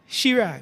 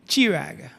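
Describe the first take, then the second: First: It begins with a sh sound. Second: It begins with a ch sound. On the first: "others would pronounce it Shirag, following the same pattern as C H A R L E N E" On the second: "Some people would pronounce it Chirag"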